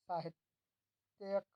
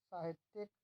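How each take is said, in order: First: साहित्यक said slowly with "tya" and no i before the k; drawn-out साहित्यक ending in "tyak"; wrong spelling read out. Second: साहित्यिक said with a clear "ti-yik", i before the k; crisp साहित्यिक with the extra i sounded; correct spelling read out. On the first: Teacher slowly reading out the misspelt quiz option साहित्यक. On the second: Teacher reading the correctly spelt quiz option साहित्यिक. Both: Shown as a demonstration. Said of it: "सही रूप है".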